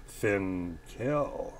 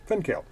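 First: Finkel said low and soft, drawn out with a rising end. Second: Said in the usual way. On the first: Shown as a demonstration. Correcting the commenter, drawls Finkel low and rising. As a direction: stretch Finkel out low and let it lift at the end. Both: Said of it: "It's F I N K E L".

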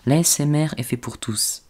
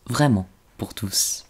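First: Said in the usual way. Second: ASMR whisper. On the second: Shown as a demonstration. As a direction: whisper it gently, slowly.

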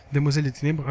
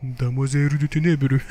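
First: Said in the usual way. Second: Slow, put-on Japanese accent; hammed-up Japanese accent, drawn out syllable by syllable; mock Japanese accent. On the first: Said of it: "avec mon plus bel accent japonais". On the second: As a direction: say it in your finest fake Japanese accent. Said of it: "mon plus bel accent japonais".

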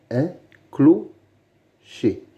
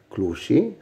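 First: "un clocher" slowly, with gaps between syllables. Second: Said in the usual way. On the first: Shown as a demonstration. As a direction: split "clocher" into two careful beats. Teacher splits word into syllables. (« un clocher » lentement, syllabe par syllabe)

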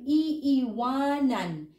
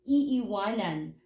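First: "iiwanan" stretched slowly, syllable by syllable; drawn-out syllables. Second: Said in the usual way. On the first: Shown as a demonstration. Teacher showing learners the future form, "iiwanan" slowly drawn out. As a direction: draw out "iiwanan", both i sounds separate. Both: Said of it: "We repeated the first syllable".

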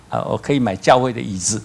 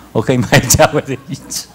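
First: Said in the usual way. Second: 买 hit hard and loud; stress on 买. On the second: Retold or imitated. Pastor tells the congregation again, loudly stressing 买. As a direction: lean louder on 买 in 我可以买教会的椅子. Repeats line with emphasis.

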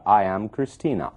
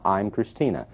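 First: "I am Christina" with I and am as two words; full uncontracted form. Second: "I'm Christina" with I'm as one syllable; contracted form. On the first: Teacher showing students the long form, "I am" said in full. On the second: Teacher showing students the short form, "I'm" contracted. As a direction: run I and am together as "I'm". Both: Shown as a demonstration. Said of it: "Ela contrai, "I am" vira "I'm".

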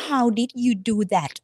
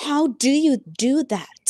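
First: "How did you" with "did" said clearly, slowly; past tense did. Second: "How do you" with "do" said clearly, slowly; present tense do. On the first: Teacher contrasting "did" for a past action, slow and clear. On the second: Teacher offering "do" for a daily habit, slow and clear. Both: Shown as a demonstration. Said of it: "คุณจะขึ้นว่า".

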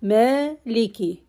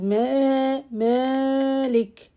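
First: Maliki with a short a, no stretch. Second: Malik with the first a drawn out; wrong stretched Ma. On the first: Teacher modelling correct Maliki. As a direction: say Maliki briskly. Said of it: "We don't have any stretch here". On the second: Teacher imitating students' stretched Malik. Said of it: "They stretch". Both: Shown as a demonstration.

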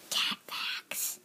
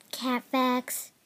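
First: Hushed whispered segment title; soft, unvoiced title whisper; whispered announcement. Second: Said in the usual way. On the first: Whispered segment title, then voiced.

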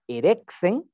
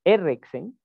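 First: "erexen" drawn out slowly, each syllable clear; slow Greek pronunciation. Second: "erexen" said quickly, rising at the end; brisk Greek word. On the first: Teacher sounding out a Greek word for students, slow and careful. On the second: Teacher repeating the Greek word at normal pace, rising. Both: Shown as a demonstration.

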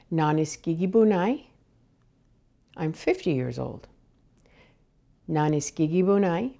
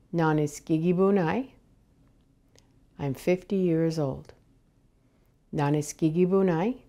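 The two takes are said the same way.

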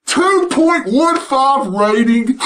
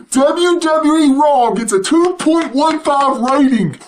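First: Slow, drawn-out repeat with a laugh; slow disbelief. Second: Eager news delivery, stress on two; excited announcement. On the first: Vlogger repeats the ratings number, slow and amused. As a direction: savour each word in disbelief. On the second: Vlogger announces the ratings news, with real excitement. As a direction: blurt out the number with glee. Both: Real, not acted.

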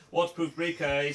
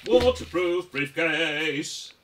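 First: Said in the usual way. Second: Drawn-out silly voice. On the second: Acted. Silly slow repeated joke.

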